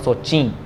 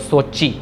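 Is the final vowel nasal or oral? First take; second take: nasal; oral. First: The final vowel is nasalized. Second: The final vowel is oral, not nasalized. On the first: The speaker calls it wrong. "Not सोची" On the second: The speaker calls it right. "बिंदियाँ नहीं लगानी अपने मन से"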